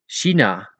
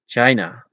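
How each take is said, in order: First: China pronounced in Dutch; Dutch pronunciation. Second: China as CHY-na with an English ch; China pronounced in English; English pronunciation. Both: Shown as a demonstration.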